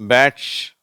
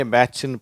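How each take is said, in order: First: பேட்ச் ending in t plus sh; emphatic பேட்ச், no vowel after sh; correct TCH ending. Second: பேட்ச்னு with a hard Indian ch; பேட்ச்னு with ch in place of sh; common mistaken reading. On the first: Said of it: "இட்டு ஷ் வரணும் கடைசியில". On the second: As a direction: show BATCH read with ichu. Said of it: "அந்த இச்சு உச்சரிப்போட". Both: Shown as a demonstration.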